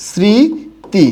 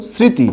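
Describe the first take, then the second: First: স্মৃতি said slowly and clearly as সৃঁতি, a bit higher; স্মৃতি with a nasal first syllable, held; careful demo. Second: Said in the usual way. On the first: Shown as a demonstration. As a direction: give স্মৃতি its true sound, সৃঁতি, drawn out. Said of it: "এই শব্দটার প্রকৃত উচ্চারণ". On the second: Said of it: "কি লিখলাম বলুন তো".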